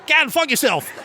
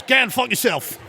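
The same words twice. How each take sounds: First: Put-on even higher-pitched Australian accent; second Australian caller. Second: Put-on high-pitched Australian accent; Australian caller. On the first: Sid springs the joke on the host, high Australian accent. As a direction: land the punchline in a high Australian voice. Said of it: "two completely separate accents". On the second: Mel gives the radio host a sentence, Australian accent. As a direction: deliver the punch in an Australian accent. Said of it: "he does two different dialects of Australian".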